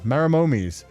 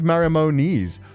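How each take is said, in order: First: The last syllable begins with an M sound. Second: The last syllable begins with an N sound. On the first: The speaker calls it right. "Is it M? ... I have been saying it wrong this entire time" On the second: The speaker calls it wrong. "I always thought it was Marimonis. ... I thought it was an N"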